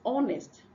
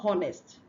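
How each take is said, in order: First: No h sound is heard at the start. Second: An h sound is heard at the start. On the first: The speaker calls it right. "The H here is silent" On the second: The speaker calls it wrong. "It's not honest"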